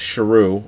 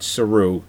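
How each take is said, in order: First: The name begins with an 'sh' sound. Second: The name begins with a plain 's' sound. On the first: The name's proper form, meaning lion. The speaker calls it right. "It's really pronounced Sharu" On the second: A young child's mispronunciation of the name. The speaker calls it wrong. "He pronounces it Saru because he's only five. He's pronouncing it wrong"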